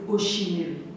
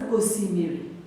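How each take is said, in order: First: The second consonant is an sh sound. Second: The second consonant is an s sound. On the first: "s na sh" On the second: "s na sh"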